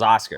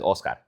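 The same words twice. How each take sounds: First: The name is said with English pronunciation. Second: The name is said with Spanish pronunciation. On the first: This is how the speaker usually introduces himself. "I introduce myself as Oscar" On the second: This is how the speaker never introduces himself. "I never in my fucking life refer to myself or introduce myself as"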